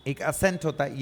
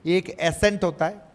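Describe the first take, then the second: First: असेंट opening on a short "uh"; short first vowel. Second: एसेंट opening on a clear "e" sound; clear first vowel. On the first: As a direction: say असेंट as "uh-sent". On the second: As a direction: say एसेंट with a distinct "ay-sent" start. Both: Shown as a demonstration. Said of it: "ये देखो असेंट".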